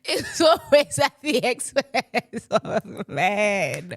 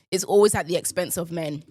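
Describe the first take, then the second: First: Drawn-out words through real laughter; helpless, laughing delivery. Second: Said in the usual way. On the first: Real, not acted. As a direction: repeat it slowly while cracking up. Repeats own remark while laughing.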